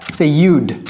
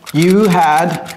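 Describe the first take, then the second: First: The words are merged into one short syllable. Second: Both words are said fully and separately.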